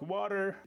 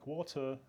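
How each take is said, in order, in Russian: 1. Американское произношение, гласная 'a' и произносится конечный r. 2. Британское произношение, гласная 'o' и без конечного r. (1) "В Америке звучит как «water»" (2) "в Британии, соответственно, условно, стандартно звучит как «water»"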